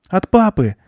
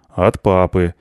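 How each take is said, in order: First: Put-on high child's happy exclamation; overjoyed boy. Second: Said in the usual way. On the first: A narrator's reading. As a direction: exclaim like a delighted little boy. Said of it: "обрадовался мальчик". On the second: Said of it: "подтвердил тот".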